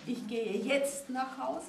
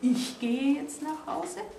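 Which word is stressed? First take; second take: jetzt; Ich. First: The stress is on "jetzt". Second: The stress is on "Ich".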